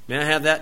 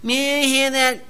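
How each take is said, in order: First: It is said in a plain, polite voice. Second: It is said in a whining, complaining voice. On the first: The child is showing respect. The speaker calls it right. "Say it right way" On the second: The child is trying to manipulate. The speaker calls it wrong. "You whine first anyway"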